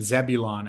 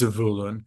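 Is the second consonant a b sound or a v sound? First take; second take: b; v. First: The second consonant is a b sound. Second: The second consonant is a v sound. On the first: The speaker calls it wrong. "that's our friend Zebulon" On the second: The speaker calls it right. "The name is Zavulun. Like the the Hebrew letter vase is not interchangeable with an English B sound"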